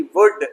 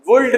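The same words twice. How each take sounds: First: वुड said as "vud"; वुड, short vowel straight into d; silent L. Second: वुल्ड with L before the d; wrong, L sounded. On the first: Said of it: "एल silent". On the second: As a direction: voice the L, "vuld". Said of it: "वुल्ड नहीं". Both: Shown as a demonstration.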